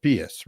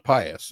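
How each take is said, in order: First: Pious as PEE-us; Latin pronunciation. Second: Pious as PIE-us; modern pronunciation. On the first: Working out the meaning, pious said PEE-us. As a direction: say pious with a long e. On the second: Working out the meaning, pious said PIE-us. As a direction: say pious with a long i. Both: Shown as a demonstration. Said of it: "So impious would be".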